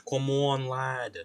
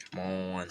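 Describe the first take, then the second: First: Mock British come on lad; British accent. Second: Said in the usual way. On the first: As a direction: urge it in a light British accent. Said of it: "I need to stop with the accents". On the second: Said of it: "urging object while carving".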